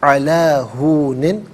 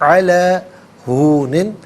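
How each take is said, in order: Both takes have the same delivery.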